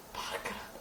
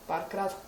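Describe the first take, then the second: First: "Párkrát" zašeptané bez hlasu, jako tajemství; whisper. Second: Said in the usual way. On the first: Shown as a demonstration. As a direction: zopakuj "Párkrát" tiše šeptem. (šeptem "Párkrát" jako dovětek)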